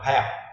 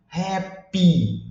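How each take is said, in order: First: The final vowel sound is cut off. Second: The final vowel sound is clearly pronounced. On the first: The speaker calls it wrong. "corta o som do final" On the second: The speaker calls it right. "tem que enfatizar bem o I"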